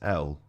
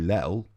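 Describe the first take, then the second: First: The letter name starts with a vowel sound. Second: The letter name starts with an l sound. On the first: The speaker calls it right. "It's L" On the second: The speaker calls it wrong. "You don't say Lel"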